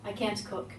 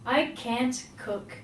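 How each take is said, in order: First: It is said very quickly. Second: It is said at a normal, careful speed. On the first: "Even if I were to say it very quickly" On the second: "Listen to how I say this"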